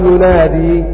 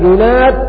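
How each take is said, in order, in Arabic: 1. تنتهي الكلمة بصوت ياء طويل. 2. تنتهي الكلمة بالدال دون حركة في آخرها. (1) "الوقف بالياء" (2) "حذف الياء"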